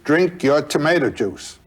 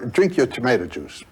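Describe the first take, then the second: First: It is said in a louder voice. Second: It is said at a normal, softer volume.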